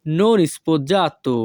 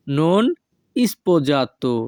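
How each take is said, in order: First: Said in the usual way. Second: Non sposato with a clear pause after "non"; word by word. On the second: Shown as a demonstration. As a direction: say "non", stop, then "sposato". Teacher repeats phrase split for learners.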